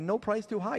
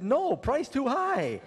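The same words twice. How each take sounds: First: It is said without a pause after no. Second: It is said with a pause after no.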